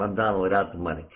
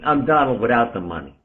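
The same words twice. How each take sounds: First: Fast, softer, laughing it off; rattled-off self-mocking joke; quick chuckling punchline. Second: Said in the usual way. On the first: Shown as a demonstration. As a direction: toss the line off quickly with a laugh. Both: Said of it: "because I do it like that".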